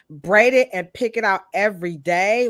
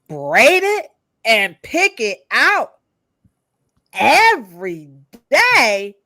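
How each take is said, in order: First: It is read out plainly, without exaggeration. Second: It is said with exaggerated, dramatic worry.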